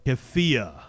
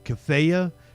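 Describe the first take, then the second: First: The vowel after the f sounds like 'ee'. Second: The vowel after the f sounds like 'ah'. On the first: The speaker calls it right. "that was way off" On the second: The speaker calls it wrong. "I always fuck the name of it up"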